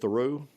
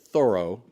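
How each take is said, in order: First: One syllable is stressed more than the other. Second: Both syllables carry equal stress. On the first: The speaker calls it wrong. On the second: The speaker calls it right.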